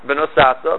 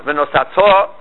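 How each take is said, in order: First: "ve'nosata" with the accent on "sa"; stress before the last syllable. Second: "ve'nosato" with the final "to" stressed and drawn out; stress on last syllable. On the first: Teacher showing the past form, next-to-last syllable stressed. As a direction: stress "sa" in "ve'nosata", leaving "ta" light. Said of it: "Normally you would stress the". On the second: Teacher showing the future form, last syllable stressed. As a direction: land hard on the end of "ve'nosato". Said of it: "move it down to the last". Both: Shown as a demonstration.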